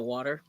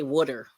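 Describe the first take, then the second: First: Said in the usual way. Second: "wooder" with a d sound, like Philly folks say water. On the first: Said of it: "instead of". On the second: Shown as a demonstration. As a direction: say "wooder", Philadelphia style. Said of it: "they say".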